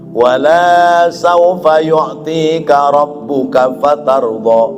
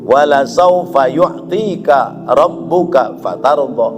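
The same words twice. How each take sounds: First: The vowel after the first L is long. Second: The vowel after the first L is short. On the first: It says that something will not be given. The speaker calls it wrong. "Coba kalau alamnya dibaca panjang" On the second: It promises that something will surely be given. The speaker calls it right. "lam yang pertama panjang apa pendek? Pendek"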